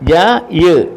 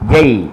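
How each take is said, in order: First: The two parts are said separately with a break. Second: The two parts are joined without any break. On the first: The speaker calls it wrong. "അങ്ങനല്ല പറയണ്ടേ" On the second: The speaker calls it right. "രണ്ടും കൂടെ ചേർത്ത് പറയുമ്പോൾ"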